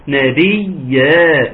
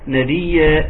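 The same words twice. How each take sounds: First: نبيا with the ي held doubled and stressed; stressed doubled yaa. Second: نبيا with the ي light and not doubled; wrong reading. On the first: Teacher showing the doubled yaa after a wrong reading. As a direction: lean hard on the shadda in نبيا, slow. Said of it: "اقول لك لا". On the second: Teacher demonstrating the mistake of a single yaa. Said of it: "ما تقوليش". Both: Shown as a demonstration.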